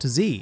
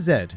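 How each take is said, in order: First: The letter is pronounced as 'zee'. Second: The letter is pronounced as 'zed'. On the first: The speaker calls it wrong. "not Z" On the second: The speaker calls it right. "it is Z, Even Canada agrees with Z, British English"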